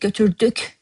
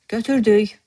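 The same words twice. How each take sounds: First: The final k sound is clearly pronounced. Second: The final k sound is dropped. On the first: "you write at the end. K" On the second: "But when you say it, it drops"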